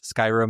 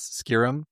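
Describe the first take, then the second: First: It is said the usual way, like 'sky rim'. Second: It is said like the words 'scare them'. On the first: The speaker calls it right. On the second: The speaker calls it wrong.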